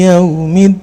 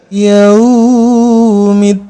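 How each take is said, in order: First: The vowel in yaum is kept short. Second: The vowel in yaum is drawn out long. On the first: The speaker calls it right. "yaum di sini harap lin" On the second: The speaker calls it wrong. "Gak boleh dibaca yaumid"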